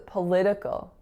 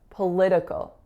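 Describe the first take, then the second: The two takes are said the same way.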